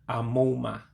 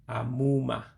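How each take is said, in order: The two takes are said the same way.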